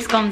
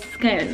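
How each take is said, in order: First: The vowel rhymes with the word gone. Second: The vowel does not rhyme with gone. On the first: This is how the household says it. "We say scones in this house. Because it's gone" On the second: This is how posh people say it. "the posh people say scones"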